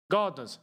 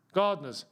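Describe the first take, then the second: No difference in how they are said.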